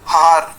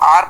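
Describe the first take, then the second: First: The word starts with an audible h sound. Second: The word starts with a vowel, no h sound. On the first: The speaker calls it wrong. "ना कि हार" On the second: The speaker calls it right. "इसको हम आर पढ़ते हैं"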